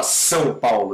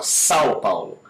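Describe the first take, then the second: First: Said in the usual way. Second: American "São Paulo", said "Sow Paolo"; American-accented "São Paulo" with "sao" for "São". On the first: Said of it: "ele não fala". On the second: Shown as a demonstration. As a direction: drop the nasal from "São" like an American. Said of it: "ele fala".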